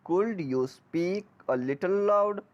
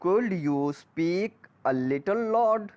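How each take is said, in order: Both takes have the same delivery.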